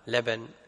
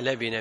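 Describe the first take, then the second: First: The b is followed by an a vowel. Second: The b is followed by an i vowel. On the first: The speaker calls it wrong. "مو بفتح الباء" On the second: The speaker calls it right. "بكسر الباء"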